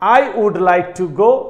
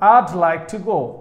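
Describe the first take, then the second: First: I and would are said as separate words. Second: I would is shortened to one syllable, I'd.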